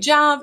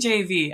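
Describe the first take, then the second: First: It is said as a single word. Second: It is said as three separate letters. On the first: "You can say Jav" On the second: "I say J-A-V"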